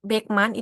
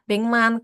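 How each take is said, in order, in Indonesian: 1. Bunyi k diucapkan sebelum m. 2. Bunyi ng diucapkan sebelum m. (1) "kayak yang Beckman itu" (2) "pengucapannya tuh beng"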